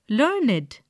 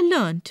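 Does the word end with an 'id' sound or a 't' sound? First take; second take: id; t. First: The word is two syllables ending in id. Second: The word is one syllable ending in t. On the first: It is a describing word. "We pronounce it as learned, to rhyme with created" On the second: It is an action word. "action word"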